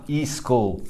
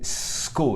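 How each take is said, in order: First: An extra vowel is added before the s sound. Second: The word begins directly with the s sound. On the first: The speaker calls it wrong. "not e-school" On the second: The speaker calls it right. "School, not e-school"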